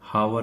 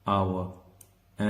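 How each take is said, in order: First: The word begins with an h sound. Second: The word begins without an h sound. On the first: The speaker calls it wrong. "हावर नहीं बोलते हम इसको" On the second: The speaker calls it right. "अब देखो एच की sound यहां पर नहीं आ रही है"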